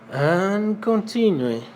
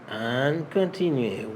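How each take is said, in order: First: Higher, slow and emphatic; announced next step. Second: Said in the usual way. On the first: Shown as a demonstration. Teacher moving the class on, higher and drawn out. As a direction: announce the next item, stretched out. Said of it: "higher slow take". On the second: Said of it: "lower plain take".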